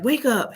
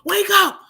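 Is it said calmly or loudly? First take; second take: calmly; loudly. First: It is said calmly and quietly. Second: It is said loudly and aggressively.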